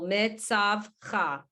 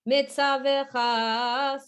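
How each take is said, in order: First: The shva is silent, giving three syllables. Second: An extra vowel is added, giving four syllables. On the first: "Technically, there's a shva, there's a vowel with the shva that would cut the, the syllable" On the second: "when we sing it, mitzavecha, so we we add extra when we sing"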